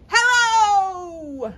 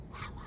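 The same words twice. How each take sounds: First: Big high shout of hello; loud hello. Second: Barely audible whispered hello; quiet hello. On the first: Librarian leads the kids' loud hello, shouting. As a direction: belt it out as loud as you can. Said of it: "Let's say hello as loudly as we can". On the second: Librarian leads the kids' quiet hello, whispered. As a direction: hush it right down to a whisper. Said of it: "Let's say hello as quietly as we can". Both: Shown as a demonstration.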